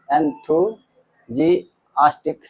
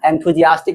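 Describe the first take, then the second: First: Enthusiastic stretched out very slowly, each syllable drawn long; slow pronunciation demo. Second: Said in the usual way. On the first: Shown as a demonstration. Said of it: "enthusiastic भी बोल सकते हैं". (enthusiastic बहुत धीरे, हर अक्षर खींचकर)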